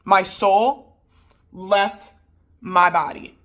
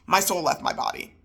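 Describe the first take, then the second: First: MY SOUL, LEFT, MY BODY in separate punches; broken-up emphasis. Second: Said in the usual way. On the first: Retold or imitated. Wife stressing her shock, emphatic word-by-word pauses. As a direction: pause before and after LEFT, punching each part.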